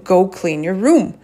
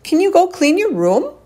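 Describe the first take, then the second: First: Mild retold parental order, period at the end; command tone. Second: High rising "Can you go clean your room?"; question tone. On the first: Mom telling kids to clean up, mildly commanding. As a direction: state "room" as a command, not a question. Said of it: "sounded like I was yelling at them". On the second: Shown as a demonstration. Mom jokingly asking kids like the Aussies, high question tone. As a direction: lift "room" way up into an exaggerated question. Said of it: "asking it like it's a question, not like the Aussies".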